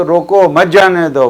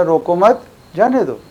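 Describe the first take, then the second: First: रोको apart, मत जाने दो run together; short break after रोको, keep मत with जाने दो. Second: रोको मत run together, then जाने दो apart; short break between मत and जाने दो; break after मत. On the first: Teacher recapping the first case, breaking after रोको. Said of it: "तो एक केस के अंदर". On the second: Teacher recapping the second case, breaking after मत. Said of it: "और दूसरे उसमें". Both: Shown as a demonstration.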